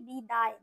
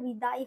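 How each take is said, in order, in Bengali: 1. শব্দটি বাংলা ধাঁচে উচ্চারিত হয়। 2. শব্দটি হিন্দি ধাঁচে উচ্চারিত হয়। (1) "আমরা বাংলায় যেটা বলি বিদায়, দয়াকার অন্তস্থ বলি" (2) "যখন আমরা হিন্দিতে উচ্চারণ করি ওটা বিদায় হয়"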